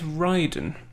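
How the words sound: The name is pronounced the Japanese way. "If we go with the Japanese"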